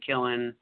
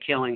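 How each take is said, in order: First: The ending is said as -in without the g. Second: The ending is said with a full -ing sound.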